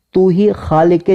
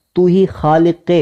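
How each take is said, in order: Both takes have the same delivery.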